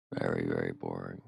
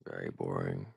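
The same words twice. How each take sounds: First: Deeply bored. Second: Low, dragged-out bored voice; bored drawl. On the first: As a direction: stretch the very in weary boredom. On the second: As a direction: sigh out how dull it was. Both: Real, not acted.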